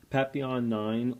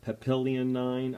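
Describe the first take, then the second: First: "Papillon" said PAP-ee-on, no L sound; French-style pronunciation. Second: "Papillion" said puh-PILL-ee-un, English style; anglicized pronunciation. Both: Shown as a demonstration. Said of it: "not real sure the exact way to pronounce it".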